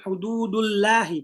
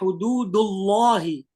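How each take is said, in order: First: The L in Allah sounds thin and light. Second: The L in Allah sounds thick and dark. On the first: The speaker calls it wrong. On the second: The speaker calls it right. "dibaca tebal"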